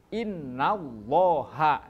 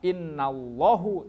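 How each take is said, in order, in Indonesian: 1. Kata ini berakhir dengan vokal 'a'. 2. Kata ini berakhir dengan vokal 'u'. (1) "tetapi innallaha" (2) "jangan dibaca innallahu"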